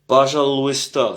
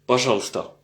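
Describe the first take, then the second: First: Every letter of the word is pronounced. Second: Some sounds are dropped, shortening the word. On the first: "c'est comme c'est écrit, si on prononce chaque lettre" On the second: "très souvent on dit"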